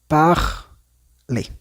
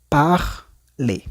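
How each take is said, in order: Both takes have the same delivery.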